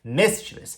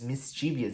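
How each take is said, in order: First: It has three syllables, with no extra vowel. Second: An extra 'ee' syllable comes before the ending. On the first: The speaker calls it right. "que se pronuncia mischievous" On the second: The speaker calls it wrong. "muito nativo pronuncia mischievous ... eles colocam até um izinho onde não deveria colocar"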